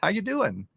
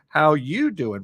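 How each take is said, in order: First: The word you is not stressed. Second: The stress falls on the word you.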